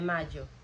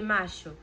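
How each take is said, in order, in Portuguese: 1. A consoante do meio é um som parecido com y. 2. A consoante do meio é um som parecido com sh. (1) "eles têm o I deles, né? O Y" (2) "em alguns países, como o Uruguai, por exemplo, seria"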